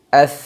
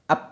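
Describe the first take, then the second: First: Air flows out with the lips not closed. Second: Both lips close together, stopping the air. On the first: The speaker calls it right. "nafas udara atau anginnya mengalir" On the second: The speaker calls it wrong. "ap dengan menutup kedua bibir"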